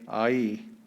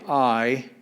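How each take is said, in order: First: The two vowels are said as separate sounds. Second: The two vowels merge into one gliding sound. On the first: The speaker calls it right. "you say I E" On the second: The speaker calls it wrong. "you don't say I as in aisle"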